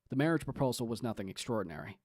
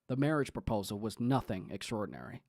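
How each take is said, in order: First: The sentence is read plainly without extra emphasis. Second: The sentence is read with strong emphasis. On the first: The speaker calls it right. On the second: The speaker calls it wrong.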